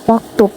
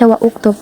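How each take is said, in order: First: The words are joined with no separate vowel. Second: A separate vowel begins the second word. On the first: The speaker calls it right. "langsung disambungkan di sukunnya" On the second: The speaker calls it wrong. "tidak lagi dibaca wa uktub"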